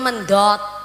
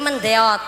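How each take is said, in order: First: The vowel is a plain o sound. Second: The vowel glides from e into o. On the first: It is the speaker's home dialect form. "Cara nggen kula mendot" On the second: It is the local dialect form. "mriki mendeot"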